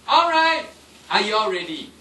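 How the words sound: There is a clear pause after alright. The word is used to catch attention. The speaker calls it right. "I say alright and I stop. I pause for a while"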